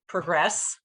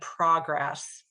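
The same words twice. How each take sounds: First: The stress is on the second syllable. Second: The stress is on the first syllable. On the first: It is used as a verb. "It's on the second syllable" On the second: It is used as a noun. "You can hear that emphasis is on the first syllable"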